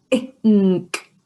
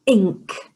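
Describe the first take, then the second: First: "Ink" split into ih, then nk; segmented "Ink": short ih, pause, nk; sounded out. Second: Said in the usual way. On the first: Shown as a demonstration. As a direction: sound out "Ink" in two parts for a child. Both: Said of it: "Can you say that?".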